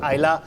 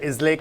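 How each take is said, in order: First: The word ends with an 'la' sound. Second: The word ends with a 'lay' sound. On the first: The speaker calls it right. "call it Isla" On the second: The speaker calls it wrong. "don't call it Islay"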